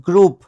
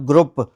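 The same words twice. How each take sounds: First: Group with a long 'oo' vowel; correct pronunciation. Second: Group with a short, cut-off vowel, 'grupp'; wrong pronunciation. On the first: Teacher modelling the seventh word, correct pronunciation. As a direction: say group as 'groop'. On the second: Teacher showing what not to say, wrong pronunciation. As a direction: misread group with a clipped vowel and hard p. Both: Shown as a demonstration. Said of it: "not group".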